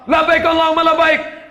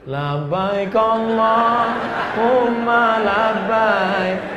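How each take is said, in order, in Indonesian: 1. Diucapkan dengan suara keras dan tegas. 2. Diucapkan dengan suara lembut dan halus. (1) "kami suaranya lantang" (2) "biar saya lembut"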